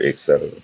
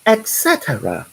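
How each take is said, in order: First: Said in the usual way. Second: Much higher, prim British "Et cetera"; mock British accent. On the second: Mimicking Stephanie's reading of his post, in a mock British accent. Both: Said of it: "in that British accent".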